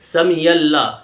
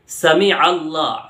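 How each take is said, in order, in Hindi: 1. दोनों शब्द 'samiyalla' की तरह जुड़कर बोले जाते हैं। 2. शब्द अलग हैं, और 'Allah' से पहले गले की आवाज़ आती है। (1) "यल्ला नहीं है मेरे भाई" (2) "आइन की आवाज आएगी"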